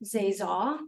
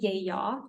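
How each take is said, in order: First: It is said with a Northern Vietnamese accent. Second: It is said with a Southern Vietnamese accent.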